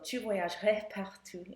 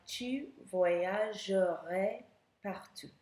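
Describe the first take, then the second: First: It is said quickly and smoothly, at normal speed. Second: It is said very slowly, syllable by syllable. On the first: The speaker calls it right. "That's not how people speak, so tu voyagerais partout is better" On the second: The speaker calls it wrong. "If I said that really slowly"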